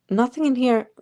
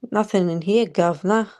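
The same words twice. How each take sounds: First: Said in the usual way. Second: Mock Cockney "governor" accent; put-on accent. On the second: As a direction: say it in a hammed-up London accent. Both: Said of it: "See, my accent changed".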